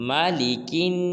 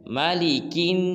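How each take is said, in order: Both takes have the same delivery.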